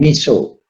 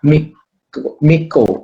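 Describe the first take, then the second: First: The c is pronounced as an s sound. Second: The c is pronounced as a k sound. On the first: The speaker calls it wrong. "bukan Miso" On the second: The speaker calls it right. "C dibaca K, Miko"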